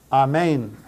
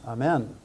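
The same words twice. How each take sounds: First: Amen as ah-MAIN, full Greek vowels; Amen said clearly the Greek way; Amen, teacher demo; Greek pronunciation. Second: Quiet throwaway Amen, AH-men; soft English-ish Amen as an aside; Amen dropped quietly; casual aside. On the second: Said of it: "you know what that means". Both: Shown as a demonstration.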